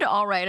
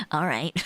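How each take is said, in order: First: Bad acting. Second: Laughing through the line; laughing repeat. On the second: Retold or imitated. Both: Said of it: "I delivered it like fucking Sonic the Hedgehog".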